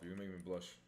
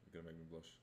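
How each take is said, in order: First: Said in the usual way. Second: Quieter, bashful repeat; soft and shy. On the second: Shown as a demonstration. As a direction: say it shyly under your breath. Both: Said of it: "repeats the line".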